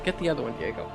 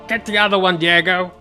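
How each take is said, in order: First: It is said in her natural voice. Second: It is said in an odd, put-on voice.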